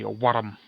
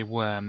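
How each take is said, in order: First: "worm" as two syllables, mock Scottish "wor-rum"; Scottish accent. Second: Said in the usual way. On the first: Shown as a demonstration. Player showing how Scottish people say worm, Scottish accent. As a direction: roll the r in "worm", hammed-up Scots. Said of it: "they say worm". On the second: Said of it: "They don't say worm".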